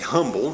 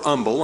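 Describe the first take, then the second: First: The word starts with a clear h sound. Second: The word starts without an h sound. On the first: "I say humble, I sound out the H" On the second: "I'm not sure exactly how y'all pronounce that"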